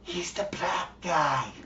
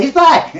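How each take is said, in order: First: Slow, hushed stage whisper; mock whisper. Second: Raised voice, calling out openly; mild mock scream. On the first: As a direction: whisper it secretively in someone's ear. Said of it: "whisper in his ear". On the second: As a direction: call it across a bar, half-heartedly.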